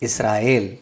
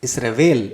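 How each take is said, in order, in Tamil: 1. இந்தப் பெயர் 'yel' ஒலியில் முடிகிறது. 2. இந்தப் பெயர் 'vel' ஒலியில் முடிகிறது. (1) "நாம சொல்ல வேண்டியது" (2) "அது வேல் என்று மாறும்போது அதன் மூலம் வந்த உண்மையான எபிரேய அர்த்தம் மறைந்து விடுகிறது"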